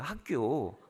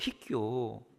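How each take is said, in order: First: The first syllable is a clear 'hak'. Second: The first syllable sounds like 'hui'. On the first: "희교가 아니라 학교예요" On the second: "이빨이 없어가지고 발음이 세시는 거죠"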